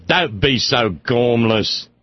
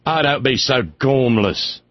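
First: Slow, low Cambridge English scold; drawn-out English reproach over a cigarette; imitating an old English friend, slow English accent. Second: Cambridge English lady's scolding, slowed; imitating an old English friend scolding; mild English accent, slow and scolding. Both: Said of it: "she never lost the accent".

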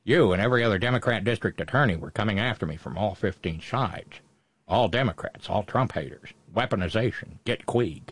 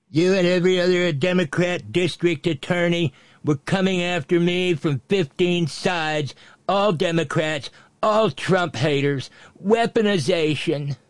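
First: Low, muttered tough-guy movie impression; bad Humphrey Bogart. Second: Quoting aloud. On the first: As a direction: drop it low and quicker, trailing off softer. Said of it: "in my bad Bogart impression". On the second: Acted.

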